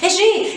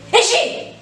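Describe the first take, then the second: First: It is called in a great hurry. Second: It is called in a very angry voice.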